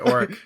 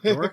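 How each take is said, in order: First: The word begins with a vowel sound. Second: The word begins with a D sound. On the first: "I think the D is silent" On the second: "I don't know if I'm saying that right"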